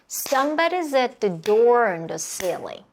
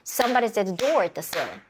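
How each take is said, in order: First: The sentence is spoken slowly with clear beats. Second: The sentence is spoken at a moderately faster pace. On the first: "전체 천천히 박수 쳐볼게요" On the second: "조금 더 박수 빠르게 쳐볼까요?"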